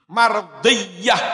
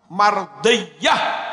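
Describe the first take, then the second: The two takes are said the same way.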